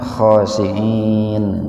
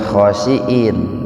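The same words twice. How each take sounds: First: It has a throaty ain sound before the ending. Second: It has a glottal stop before the ending. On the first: Humble and devout. The speaker calls it right. "itu pakai ain Pak" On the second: Despised or lowly. The speaker calls it wrong. "jangan khosyin, jangan pakai hamzah"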